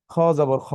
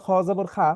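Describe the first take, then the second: First: "খ জবর খ" with rounded o at the end; correct kho ending. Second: "খ জবর খা" with open aa at the end; mistaken kha ending. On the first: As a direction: model "খ জবর খ" ending kho, not khaa. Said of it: "এটা ওকে ওর নিজের মতো করে পড়তে হয়". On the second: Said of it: "তাহলে কিন্তু তার এটা ভুল হয়ে যাবে". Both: Shown as a demonstration.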